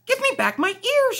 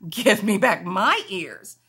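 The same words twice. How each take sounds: First: High, loud little kitten voice; high kitten demand. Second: Lower bunny voice. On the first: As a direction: squeak it out, demanding. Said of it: "she said". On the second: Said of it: "he said". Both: Acted.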